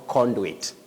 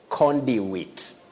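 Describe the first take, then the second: First: The middle is a joined 'ndi' sound. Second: The middle is a separate 'dew' sound. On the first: The speaker calls it wrong. "That sounding ndi, like the digraph in Kiswahili of ndoa, is not there" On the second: The speaker calls it right. "You say conduit"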